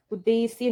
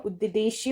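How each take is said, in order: First: उद्देश्य with s for sh; plain hissed s in उद्देश्य; wrong pronunciation. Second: उद्देश्य slowly with clear sh; correct pronunciation. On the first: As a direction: say उद्देश्य as ud-des-ye. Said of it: "उद्देश्य नहीं होगा". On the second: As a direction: say उद्देश्य as ud-de-shye. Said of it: "उद्देश्य होगा". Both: Shown as a demonstration.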